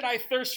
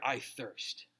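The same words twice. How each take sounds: First: "I thirst" proclaimed louder and higher; declared I thirst. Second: "I thirst" said low and soft, parched and weak; quiet low I thirst. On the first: Pastor retelling Jesus's cry from the cross, bold declaration. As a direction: announce "I thirst" boldly. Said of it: "Jesus said". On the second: Pastor voicing Jesus on the cross, soft and parched. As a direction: let "I thirst" sink, soft and dry. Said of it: "Why did he declare". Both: Shown as a demonstration.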